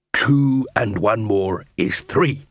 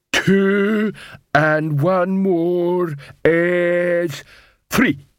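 First: Slow, usual-pitched confirmation; patient dwarf tutor. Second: Very slow, raised-pitch troll sum; struggling troll. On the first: Dwarf constable confirms troll partner's answer, slow and measured. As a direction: repeat the sum slowly, as a tutor. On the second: Troll works out calculus territory, slow laboured counting. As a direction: drag out each word of the sum. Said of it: "Detritus looked panicky". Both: Acted.

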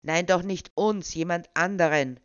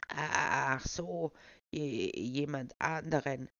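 First: Louder, insistent correction. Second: Put-on slow, stammering old man; lightly put-on old man, stammering; feeble old voice. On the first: Acted. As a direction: set him straight impatiently. Pushy official corrects old man. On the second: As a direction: dodder through the words. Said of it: "den altersschwachen Tonfall beizubehalten".

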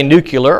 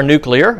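First: Nuclear pronounced NOO-kyuh-ler; NUCLEAR as nucular. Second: Nuclear pronounced NOO-klee-er; NUCLEAR as spelt. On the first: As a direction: say nuclear with kyu in the middle. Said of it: "if you say nuclear or". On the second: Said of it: "or nuclear". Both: Shown as a demonstration.

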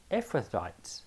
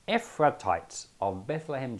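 First: Ephrathites said softly, unsure, as EF-ruh-tites; unsure pronunciation. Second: Ephrathites said cleanly as EF-ruh-tites, settled; corrected pronunciation. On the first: Checking a hard name mid-reading, a soft unsure try. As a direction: test Ephrathites quietly to yourself. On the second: Retrying the name for the listeners, a clean corrected reading. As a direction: say Ephrathites confidently this time. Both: Shown as a demonstration. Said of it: "try that one more time".

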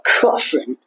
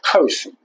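First: "cussing" said without any R, cuss-ing. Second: "cursing" with a full R sound, cur-sing; cursing, not cussing. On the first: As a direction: drop the R in "cussing". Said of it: "as far away as cussing". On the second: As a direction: say "cursing" clearly with the R. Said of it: "not cursing, but cussing". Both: Shown as a demonstration.

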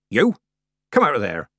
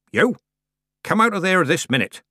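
First: Loud call at the kitten; shouted order. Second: High, loud commanding call; booming command. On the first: Granny shouts after the kitten running into the horn, loud. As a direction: bark You! Come out of there!. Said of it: "Granny shouted". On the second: Granny commands the kitten out of the horn, booming. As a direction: order it out as if to shake mountains. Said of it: "Granny commanded, in a voice fit to shake mountains". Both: A narrator's reading.

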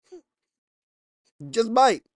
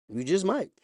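First: Very slow, higher, louder take; preacher drags the warning out for the crowd; drawn-out warning. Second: Said in the usual way. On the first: Shown as a demonstration. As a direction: stretch every word out ominously. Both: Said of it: "repeated take drawn out".

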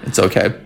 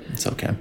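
First: Said in the usual way. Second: Soft breathy whisper. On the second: Acted. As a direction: whisper it to yourself. Repeated line, whispered.

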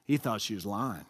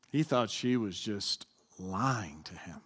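First: Lower, blunt and plain-spoken; not so nicely. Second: Lower, slow and heavy; not so nicely. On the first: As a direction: say it bluntly, without softening. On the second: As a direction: drag it out, weighty and unsparing. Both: Shown as a demonstration. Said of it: "say it not so nice".

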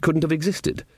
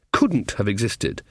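First: Said in the usual way. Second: COULDN'T stressed, slow and deliberate; emphatic repeat. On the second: A narrator's reading. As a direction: lean slowly on the word COULDN'T.

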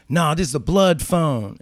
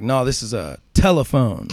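First: "blood" hit firmly, slow and higher; stress on blood. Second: "telephone" punched as a smart-aleck correction; stress on telephone. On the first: Inmate telling narrator the phone belongs to Bloods, "blood" stressed. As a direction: lean on "blood" in "blood phone" to claim the phone for his gang. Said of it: "And he's like". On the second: Narrator correcting the inmate's "blood phone", "telephone" stressed. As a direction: lean on "telephone" to mock the "blood phone" claim. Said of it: "And I'm like". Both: Retold or imitated.

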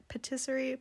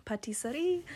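First: "Patisserie" tried hesitantly, unsure of the sounds; unsure pronunciation. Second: "Patisserie" repeated after Kiki, rising; corrected pronunciation. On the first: Unsure how to say the bakery word to Kiki. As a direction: test out "Patisserie" as a question. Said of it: "how do you say it?". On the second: Copying Kiki's pronunciation of the bakery word. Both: Shown as a demonstration.

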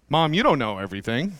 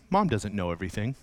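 First: Acted teen talking back, mildly; said out loud. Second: Low, soft inner voice; private thought. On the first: Fourteen-year-old telling mom out loud, mildly challenging. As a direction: say it openly to mom at normal volume. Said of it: "you start saying out loud". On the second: Acted. Twelve-year-old privately starting to doubt mom, low quiet thought. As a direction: think it to yourself under your breath. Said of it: "well, you start thinking".

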